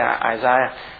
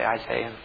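First: The name is said with a British pronunciation. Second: The name is said with an American pronunciation. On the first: "And I can say, Isaiah, since my daughter isn't here to snigger at me" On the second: "because Americans would say Isaiah"

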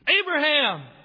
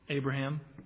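First: The name is shouted loudly. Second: The name is said softly and gently. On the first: It urgently grabs attention before harm is done. "Was it a shout to get Abraham's attention before he could lower the knife?" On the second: It comforts like a friend would. "Or was it a soft voice of a friend, comforting an emotional father?"

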